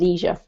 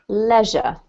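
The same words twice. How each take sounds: First: It is said with an American accent. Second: It is said with a British accent. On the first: "if you speak with an American accent, then you pronounce that leisure" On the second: "it rhymes with leisure ... in British, it rhymes"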